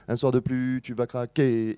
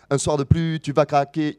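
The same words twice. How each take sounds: First: Un soir de plus, tu vas craquer with the weight only on the last syllable; stress on the last syllable. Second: Un soir de plus, tu vas craquer with a hit on each syllable; every syllable stressed. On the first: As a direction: let the phrase fall on craquer. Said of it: "il va accentuer plutôt la dernière". (accent sur la dernière syllabe) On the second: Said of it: "il accentue toutes ces syllabes". (chaque syllabe accentuée) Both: Shown as a demonstration.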